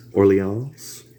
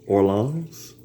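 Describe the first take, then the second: First: Orleans? said as or-lee-ahns, rising; testing Orleans with a French lean and a question; unsure pronunciation try. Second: Orleans? said or-lahns with a nasal vowel, rising; second pronunciation try. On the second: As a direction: try Orleans again, more French. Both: Shown as a demonstration. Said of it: "I don't know".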